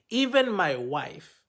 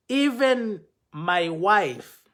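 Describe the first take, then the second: First: "even my wife" repeated slower and quieter, rising at the end; softer repeat. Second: "Even my wife" slow, EVEN stressed and loud; slow emphasis. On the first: Speaker pleading with the man, softer rising repeat. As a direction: let the repeat sink, gentle rise. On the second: Speaker pleading with the man, slow stressed "Even my wife". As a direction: lean hard on "Even", drawn out. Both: Real, not acted.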